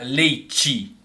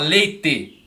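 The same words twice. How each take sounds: First: São Paulo accent, t sounds like tch. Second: Southern accent, the t sounds plain.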